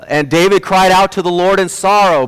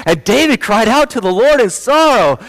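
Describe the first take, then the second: First: Raised, projected Bible reading; lively but controlled retold reading; reading aloud. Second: High, swooping kiddie storybook reading; hammed-up Bible reading for a baby; highly animated. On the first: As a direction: read Scripture aloud with moderate animation. First take of animated reading to baby. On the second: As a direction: exaggerate it, pitched way up and sing-song. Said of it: "I become more animated".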